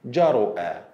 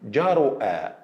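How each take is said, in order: No difference in how they are said.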